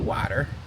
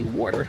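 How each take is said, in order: First: It is said in a standard accent. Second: It is said in a Philadelphia accent. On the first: This is how locals do not say it. "We don't say water" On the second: This is how locals say it. "That's how we say water down over here up north, Philly town. We say water"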